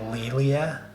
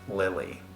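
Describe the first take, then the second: First: The name ends with an 'ah' sound. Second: The name ends with an 'ee' sound. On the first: The speaker calls it right. "Your name is pronounced Lilia" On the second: The speaker calls it wrong. "not Lily"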